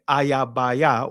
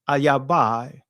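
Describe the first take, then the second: First: The word ends in a separate 'yah' syllable. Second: The word ends in a single 'eye' diphthong. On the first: The speaker calls it right. "really it's ayabaya when you say it in ancient Hebrew" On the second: The speaker calls it wrong. "excuse me"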